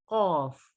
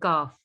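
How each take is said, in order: First: The letter is said with a heavy, full sound. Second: The letter is said with a thin, light sound. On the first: The speaker calls it right. "ये है मोटे हरूफ।" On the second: The speaker calls it wrong. "ऐसे नहीं हम पढ़ सकते।"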